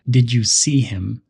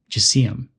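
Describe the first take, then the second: First: Each word is said separately and fully. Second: The first words blend into one short sound.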